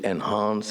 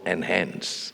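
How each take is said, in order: First: It is said in a non-American accent. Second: It is said in an American accent.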